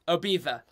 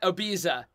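First: The middle consonant is a lisped th sound. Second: The middle consonant is a plain z or ts sound. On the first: The speaker calls it right. "with the lisp" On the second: The speaker calls it wrong. "it's not Ibiza"

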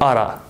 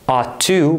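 First: The words blend into one reduced word, oughta. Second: Both words are said fully and separately. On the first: "but oughta" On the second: "Not ought to"

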